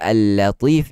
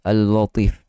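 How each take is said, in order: First: The L is said light and thin. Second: The L is said heavy and thick. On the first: The speaker calls it right. "Dia patutnya Al-Latif" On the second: The speaker calls it wrong.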